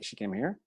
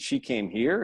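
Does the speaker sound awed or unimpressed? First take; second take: unimpressed; awed. First: The line sounds flat and unimpressed. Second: The line sounds awed and amazed. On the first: The place is shabby. "It's more like" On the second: The place is impressive. "oh my God, this, you know"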